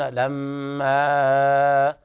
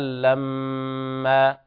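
First: The final vowel is held longer than two counts. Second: The final vowel is held for only two counts. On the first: The speaker calls it wrong. "بعض الذين يخطئون فيها يقولون لما، ويزيد على مقدار المد الطبيعي" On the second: The speaker calls it right. "تمد مقدار حركتين فقط"

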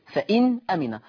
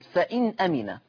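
The two takes are said the same way.

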